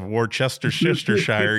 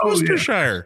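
First: The word is pronounced letter by letter, as spelled. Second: The word is pronounced shortened, with syllables dropped. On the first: The speaker calls it wrong. "instead of Worcestershire" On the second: The speaker calls it right. "No, it's Worcestershire"

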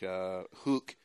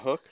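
First: The word is said in a Scottish accent. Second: The word is said in a plain accent. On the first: "she has a very Scottish accent when she says some things" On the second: "you mean a hook?"

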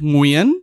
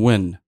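First: The name does not sound like English 'win'. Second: The name sounds like the English word 'win'. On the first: The speaker calls it right. "You did not see how she trained me to say that" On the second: The speaker calls it wrong. "They're saying win"

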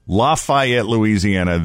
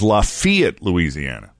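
First: The second syllable sounds like 'fay'. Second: The second syllable sounds like 'fee'. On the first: The speaker calls it wrong. "You and I have both been pronouncing it Lafayette. ... That is incorrect" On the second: The speaker calls it right. "It is Lafayette, Louisiana"

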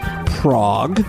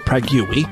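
First: The name is pronounced the usual way. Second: The name is pronounced an odd, made-up way. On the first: "this one comes from Prague" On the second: "or as I pronounce it"

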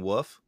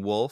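First: The word is said without any L sound. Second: The word ends with a clear L sound. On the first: "saying woof" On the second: "Instead of saying wolf"

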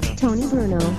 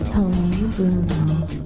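First: The name is said fast. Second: The name is said slowly.

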